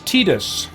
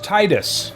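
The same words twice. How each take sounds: First: The first syllable does not sound like tide. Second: The first syllable sounds like the word tide. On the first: The speaker calls it wrong. "Tidus is the official pronunciation" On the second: The speaker calls it right. "his name should be pronounced Tidus"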